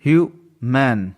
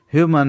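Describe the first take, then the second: First: human slowly, broken as ह्यू, then मन; split into syllables. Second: Said in the usual way. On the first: Shown as a demonstration. Teacher showing the two syllables to learners, human slowly split in two. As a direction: say human in two separate beats, pause between. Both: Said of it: "three syllable में divide किया है".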